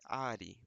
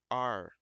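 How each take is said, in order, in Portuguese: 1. O R é pronunciado como um R português. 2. O R é um R inglês enrolado, estilo caipira. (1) "não vai ser are" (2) "vai ser are"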